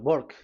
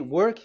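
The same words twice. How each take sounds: First: It is said Indian-style, with w like b. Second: It is said with a plain English w sound.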